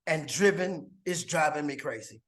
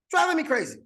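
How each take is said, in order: First: Said in the usual way. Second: Playful high echo. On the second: Acted. Recruit teasing his own wordplay, higher. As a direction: jump way up and sing out driving me crazy.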